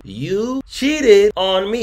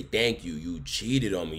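First: Outraged shout. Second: Said in the usual way. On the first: Real, not acted. Ranting about cheating. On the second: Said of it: "and even say".

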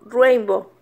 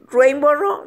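First: "Rainbow" alone as "ruembo", falling at the end; self-corrected name. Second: "Rainbow Raw" with an extra "ro" after "Rainbow", rising; mistaken name. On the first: Learner correcting herself, "Rainbow" as falling "ruembo". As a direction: say "Rainbow" with a Spanish accent, settling downward. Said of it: "no lo puedo pronunciar bien". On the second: Learner trying the sushi name, "Rainbow Raw" as rising "ruembo ro". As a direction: say "Rainbow Raw" as "ruembo ro", lifting the end unsurely. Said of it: "no, Rainbow". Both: Real, not acted.

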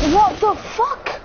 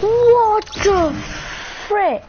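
First: Slow, high, stunned what the fuck; high disbelieving swear; shocked exclamation. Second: High, loud what the frick; loud high cleaned-up swear; softened shocked exclamation. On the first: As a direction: drag it out in disbelief. Shocked by something in game. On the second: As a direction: censor yourself mid-shock. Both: Real, not acted.

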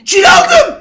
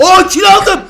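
First: Very high, loud squeal of victory; shrieking with joy. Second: Higher, loud triumphant cry; excited shout. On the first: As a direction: squeal it at the top of the voice. Got a kill, repeats. (sevinçten tiz bir çığlık) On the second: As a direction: shout it like a big win. Got a kill. (heyecanlı zafer çığlığı) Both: Real, not acted.

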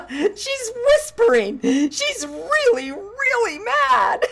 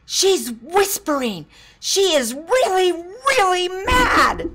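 First: High, slowed quote broken by laughter; laughing child quote. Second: Put-on high, loud, slowed child's alarm; little girl warning. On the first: Retold or imitated. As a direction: repeat the kid's line while cracking up. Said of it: "that cracked me up". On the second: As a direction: warn the class like a wide-eyed kid. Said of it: "and she said".

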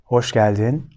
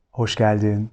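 The two takes are said the same way.

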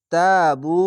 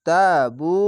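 First: তাবু recited louder with a long া; Quranic recitation. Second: তাবু recited with long vowels; Quranic recitation. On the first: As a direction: chant তাবু with a rising end. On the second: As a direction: chant তাবু, tajweed style. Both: Shown as a demonstration. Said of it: "এক আলিফ টেনে পড়বেন".

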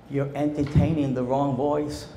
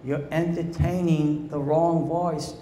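First: Said in the usual way. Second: Wrong leaned on, the phrase slowed right down; slowed repeat with wrong stressed. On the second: Shown as a demonstration. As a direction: hammer the word wrong home slowly.

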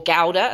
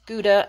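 First: Gouda said "GOW-da", first syllable rhyming with how; British Gouda. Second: Said in the usual way. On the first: Shown as a demonstration. Haul vlogger teaching viewers her English Gouda, said "GOW-da". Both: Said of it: "as we say in England".

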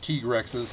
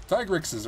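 First: "Tigrexes" said as TEE-ger-ex-ez, long E in the first syllable; "Tigrexes" with a "tee" start and four syllables, TEE-ger-ex-ez; pronunciation. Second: "Tigrexes" said as TIE-grex-iz, long I in the first syllable; "Tigrexes" with a long "tie" start, then "grex-iz"; pronunciation. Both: Shown as a demonstration. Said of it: "however you want to pronounce it".

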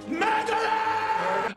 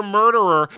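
First: High, long drawn-out cry of MURDERER; mock accusing yell. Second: Said in the usual way. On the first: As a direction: stretch MURDERER into a hammed-up, high-pitched wail. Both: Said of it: "are yelling at her".

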